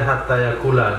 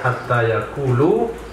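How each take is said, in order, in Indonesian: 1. Kata terakhir berakhir dengan vokal a. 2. Kata terakhir berakhir dengan vokal u. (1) "Yaqula itu dibaca dengan nasab" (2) "boleh juga dibaca dengan rofa"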